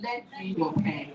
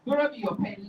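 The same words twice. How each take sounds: First: Slow "Lend me your pen"; measured teacher's model of "Lend"; correcting to LEND. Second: Said in the usual way. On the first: Shown as a demonstration. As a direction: spell out the correction slowly, starting on "Lend".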